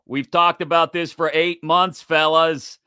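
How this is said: It is read in a put-on imitation voice.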